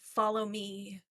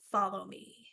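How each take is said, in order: First: It is said as a pleading request. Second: It is said as a firm command. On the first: The listener is begged to come devotedly. "the command becomes more of a plea" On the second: The listener is ordered to go forward. "The inflection sounds of a command"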